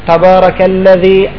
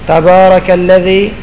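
The two takes are said the same way.

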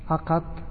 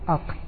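First: The q is followed by an a vowel. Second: The q is followed by no vowel. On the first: "وفتحة" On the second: "وسكون"

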